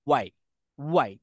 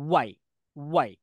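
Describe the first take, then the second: The two takes are said the same way.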